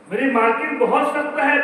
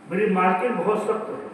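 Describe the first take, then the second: First: मेरी मालकिन बहुत सख्त है again, higher and louder; emphatic repeat. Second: Said in the usual way. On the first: Acted. Old maid pleading to Bilal about her mistress, raised and insistent. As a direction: press the complaint harder the second time.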